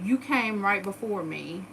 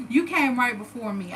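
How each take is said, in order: First: Reading the sister's message out slowly. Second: YOU stressed, falling, incredulous; repeating the sister's line after laughing, stressed YOU; repeated for effect. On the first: Slow deliberate reading of the text. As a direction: read it slowly, rising on you. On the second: YOU leaned on, falling tune. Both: Shown as a demonstration.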